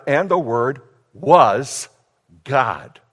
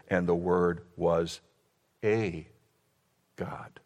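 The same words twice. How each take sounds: First: "was" drawn out loud, pause before "God"; stress on was. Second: Low, quiet, with "a" isolated between pauses; stress on a. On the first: Preacher expounding the Greek text, emphatic "was", pause, "God". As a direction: land hard on "was", then set "God" apart. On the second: Preacher quoting the New World Translation, "a" set pointedly apart. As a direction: pause before and after "a", let "God" drop away. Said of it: "And it reads this way". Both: Shown as a demonstration.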